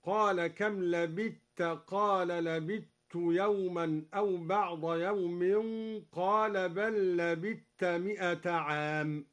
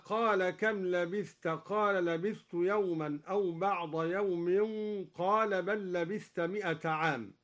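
First: لبثت said as labitt, tha absorbed into a doubled t; slow, لبثت with a double t and no th; merged tha into ta. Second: Said in the usual way. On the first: Shown as a demonstration. Teacher showing Duri's idgham in لبثت. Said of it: "هكذا". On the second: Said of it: "أدغم الدوري الثاء في التاء".

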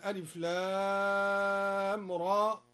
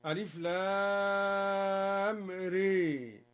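First: Said in the usual way. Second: ري drawn out with a leaned toward e, re; imala on ra. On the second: Shown as a demonstration. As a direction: chant the letter ري long, bent toward e. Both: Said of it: "قرأ الدوري بإمالة الراء هكذا".

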